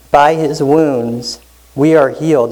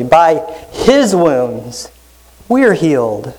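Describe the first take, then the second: First: By his wounds we ARE healed, leaning on "are"; first reading, "are" stressed. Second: Very slow, pausing, "his" drawn out and stressed; second reading, slow, weight on "his". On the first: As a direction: land the weight on "are", slow and even. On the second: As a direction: linger on "his" after "By", then "we are healed". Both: Shown as a demonstration. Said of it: "let me emphasize that differently".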